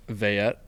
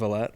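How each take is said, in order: First: Vayette said with a y sound in the middle; correct name pronunciation. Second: Vallette said with an l sound in the middle; mistaken name pronunciation. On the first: Guest pronouncing his surname for the host, correct name pronunciation. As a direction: say Vayette with y, not l. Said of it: "wanted you to pronounce your last name". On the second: Guest showing how people get his surname wrong, mistaken pronunciation. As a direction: say Vallette with l, not y. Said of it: "not Vallette". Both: Shown as a demonstration.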